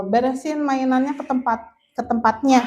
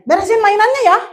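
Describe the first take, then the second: First: The don't-do-this version of a tidy-up order; wrong way. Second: Much higher, louder friendly ask; engaged, friendly tidy-up request; right way. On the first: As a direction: toss the instruction off without warmth. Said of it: "Jangan kayak gini". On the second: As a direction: invite the child gently to tidy up. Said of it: "Kalau gesturnya gini". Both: Shown as a demonstration.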